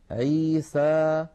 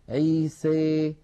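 First: The final vowel is an open, pure 'a'. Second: The final vowel leans strongly toward 'ee'. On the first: "فتحا وسطا" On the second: "فيخلط صوت الألف بصوت الياء أكثر من هذا"

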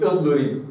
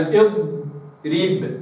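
First: The ḍ sound is released too early. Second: The ḍ sound is held long and steady. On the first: The speaker calls it wrong. "مش اضرب" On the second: The speaker calls it right. "وإنما اضرب هكذا"

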